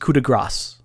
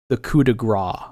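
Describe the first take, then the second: First: The last word ends with an s sound. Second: The last word ends without an s sound. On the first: The speaker calls it right. "It's pronounced coup de grace" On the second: The speaker calls it wrong. "I say Gra"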